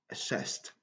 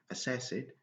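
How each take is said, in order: First: The ending is said as a t sound. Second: The ending is not said as a t sound. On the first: The speaker calls it right. "Le passé va nous donner également le son t à la fin" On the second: The speaker calls it wrong. "On ne doit pas dire assessed"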